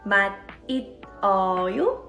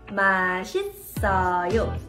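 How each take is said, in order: First: The final consonant is not carried over. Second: The final consonant is carried into the next syllable. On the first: The speaker calls it wrong. "Did you say it like 맛있어요?" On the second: The speaker calls it right. "It's actually pronounced as 맛있어요"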